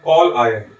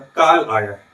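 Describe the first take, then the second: First: The first vowel is a rounded 'aw' sound. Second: The first vowel is a plain open 'ah' sound. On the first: Someone has phoned or summoned. The speaker calls it right. "इसको इस तरीके से उच्चारित करना चाहिए, कॉल" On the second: Death or doom has come. The speaker calls it wrong. "यदि हम आगत स्वर का प्रयोग नहीं करें"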